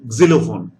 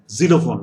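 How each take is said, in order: First: The word begins with a short k-like sound. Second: The word begins with a plain z sound. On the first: The speaker calls it right. "It is xylophone" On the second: The speaker calls it wrong. "I'm removing Z, uh, G over here now. ... No, it's not like that"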